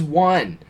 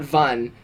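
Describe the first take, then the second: First: Said in the usual way. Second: "Vun" with a V opening in place of the W of "one"; accented "Vun", said as written for "one". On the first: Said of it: "the teacher would be like". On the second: Retold or imitated. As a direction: sound out "Vun" starting on a V. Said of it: "they would sound out".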